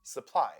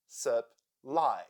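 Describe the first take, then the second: First: Said in the usual way. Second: Syllable by syllable. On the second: Shown as a demonstration. Teacher showing the two syllables of Supply, syllable by syllable. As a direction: Supply split in two, with a pause between syllables. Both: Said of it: "Here we have two syllables".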